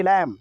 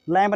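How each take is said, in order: First: "लैम" ending on m, no b; silent B. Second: "लैम्ब" with the b audible after m; B sounded at the end. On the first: Teacher giving the right reading, silent b. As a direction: close "लैम" on the m alone. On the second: Teacher showing the wrong reading, b sounded. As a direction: finish "लैम्ब" on a b. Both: Shown as a demonstration. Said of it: "लैम्ब नहीं, लैम".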